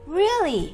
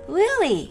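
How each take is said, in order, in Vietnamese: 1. Từ này lên giọng nhẹ, nghe chỉ hơi ngạc nhiên. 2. Từ này lên giọng nhẹ, nghe chỉ hơi ngạc nhiên.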